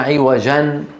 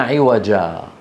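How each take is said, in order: First: The word ends with a final n sound. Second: The word ends in a lengthened a vowel. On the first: The speaker calls it wrong. "ما قلنا عوجا" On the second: The speaker calls it right. "قلنا عوجا"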